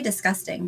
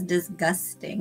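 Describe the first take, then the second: First: The word is said casually, without sounding every letter. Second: The word is said carefully, sounding every letter including the G. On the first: The speaker calls it right. "I say disgusting" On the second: The speaker calls it wrong. "she will pronounce every single letter in disgusting"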